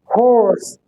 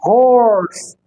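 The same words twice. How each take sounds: First: हॉर्स short, no r; British हॉर्स without the r; British horse. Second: हॉर्स with a rolled r, slow; American हॉर्स curling the r; American horse. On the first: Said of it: "British". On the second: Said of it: "American". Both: Shown as a demonstration.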